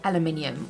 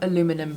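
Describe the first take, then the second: First: It is said the non-American way. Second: It is said the American way.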